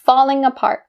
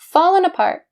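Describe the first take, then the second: First: The first word ends with a full ng sound. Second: The first word ends with a plain n sound.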